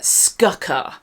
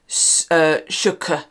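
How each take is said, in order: First: The word begins with an sk sound. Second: The word begins with an sh sound. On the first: It is read as the spelling looks. The speaker calls it wrong. "If you pronounce how it's written" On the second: It is said as in Old English. The speaker calls it right. "in Old English, the S and the C make a sh sound"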